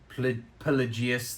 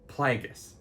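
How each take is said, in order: First: The name is said as Pelagius. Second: The name is said as Plagueis. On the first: The speaker calls it wrong. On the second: The speaker calls it right.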